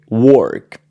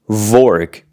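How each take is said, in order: First: The word begins with a W sound. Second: The word begins with a V sound. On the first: The speaker calls it right. "we say work" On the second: The speaker calls it wrong. "W is not pronounced V ... we don't say vork"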